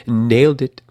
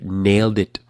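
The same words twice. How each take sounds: First: "Nailed it" punched, higher and louder with a laugh; triumphant "Nailed it" retake; emphatic redo. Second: Said in the usual way. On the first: Shown as a demonstration. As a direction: hit "Nailed" hard, laughing. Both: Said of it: "I didn't say that one right".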